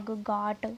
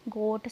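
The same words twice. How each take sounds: First: गाट with a long open "aa", like "gaat"; open AA vowel. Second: गोट with a long round "o", like "goat"; round O vowel. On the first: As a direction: say गाट with "aa" in place of "o". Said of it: "आ की sound आ रही है". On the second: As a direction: say गोट with "oh", not "aa". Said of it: "sorry". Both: Shown as a demonstration.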